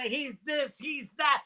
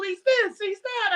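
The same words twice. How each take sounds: First: Said in the usual way. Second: High-pitched, indignant listing; exasperated mimicry. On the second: Comedian quoting the golfers' praise back at them, exasperated. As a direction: throw their words back in protest.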